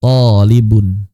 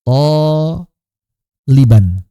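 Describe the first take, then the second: First: Tolibun lower and slow, ending on -un; slow Arabic contrast. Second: Toliban stretched very slowly and louder; slow Arabic demo; drawn-out nunation. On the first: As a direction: stress the -un of tolibun. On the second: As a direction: draw toliban out with full nunation. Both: Shown as a demonstration. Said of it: "Itu beda artinya".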